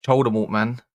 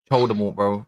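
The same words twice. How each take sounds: First: Said in the usual way. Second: Choldemort said with a ch sound at the start; mangled name. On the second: Shown as a demonstration. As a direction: say Choldemort, turning the V into ch. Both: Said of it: "We can't even say his name no more".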